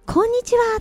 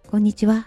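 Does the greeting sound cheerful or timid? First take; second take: cheerful; timid. First: The greeting is bright and cheerful. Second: The greeting is hesitant and nervous. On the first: The person is friendly and open. The speaker calls it right. "ニコッとして" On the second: The person is unsure and shy. The speaker calls it wrong. "おどおどして"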